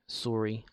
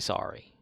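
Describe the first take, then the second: First: It is said with a Canadian accent. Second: It is said with an American accent. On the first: "Canadians usually say sorry a certain way" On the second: "I say sorry because I'm I'm a piece of shit that lives in America"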